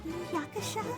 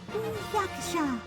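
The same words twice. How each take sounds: First: It is said in a faint whisper. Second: It is said a little louder, moderately.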